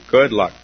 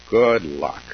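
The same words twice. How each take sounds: First: "Good luck" punched out louder, "Good" hit hard; much louder mocking "Good luck"; emphatic louder repeat. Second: Said in the usual way. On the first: Shown as a demonstration. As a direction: throw "Good luck" out as a loud ironic jab. Ironic aside about perfect partner.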